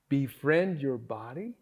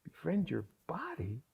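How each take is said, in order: First: A laugh on the rising question; amused rising disbelief. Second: Much softer, quick repeat to herself; muttered under the breath; muttered disbelief. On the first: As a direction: laugh at the idea, asking it aloud. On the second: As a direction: quietly scoff at the phrase. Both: Real, not acted.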